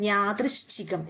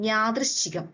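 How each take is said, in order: The two takes are said the same way.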